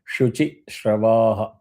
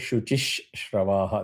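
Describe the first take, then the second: First: No extra 'sh' sound follows 'Shuchi'. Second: An extra 'sh' sound is added after 'Shuchi'. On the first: The speaker calls it right. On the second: The speaker calls it wrong.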